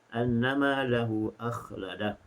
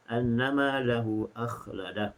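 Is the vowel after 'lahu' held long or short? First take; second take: short; short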